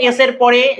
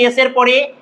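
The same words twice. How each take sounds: The two takes are said the same way.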